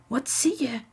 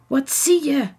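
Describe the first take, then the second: First: Zachte, hoge nieuwsgierige vraag; gespannen zacht. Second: Hoge, luidere gretige vraag; dringend nieuwsgierig. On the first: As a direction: vraag het gretig maar gedempt. Kinderen vragen gespannen, stil. (zacht en nieuwsgierig) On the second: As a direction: vraag het ongeduldig, met meer stem. Zelfde vraag, dringender herhaald. (dringend en nieuwsgierig) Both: A narrator's reading.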